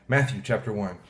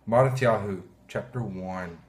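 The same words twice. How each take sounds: First: Said in the usual way. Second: Mattityahu in Hebrew sounds, mah-tee-TYAH-hoo, then chapter one; Hebrew name. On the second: Shown as a demonstration. Pastor opening the Bible reading with the Hebrew book name. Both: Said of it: "or in Hebrew".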